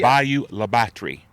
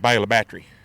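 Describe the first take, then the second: First: The name gets a careful, formal pronunciation. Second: The name gets a casual, local pronunciation. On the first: "Let me say this correctly" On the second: "the locals all say"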